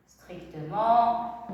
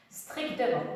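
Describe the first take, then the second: First: "Strictement" drawn out very slowly, syllable by syllable; slow dictation. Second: Said in the usual way. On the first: Shown as a demonstration.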